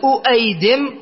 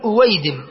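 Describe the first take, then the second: First: The second consonant is a glottal stop. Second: The second consonant is a w sound. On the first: This is the underlying original form. The speaker calls it wrong. "هكذا الأصل" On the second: This is the actual diminutive form used. The speaker calls it right. "قل أويدم"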